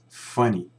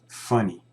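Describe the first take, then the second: No difference in how they are said.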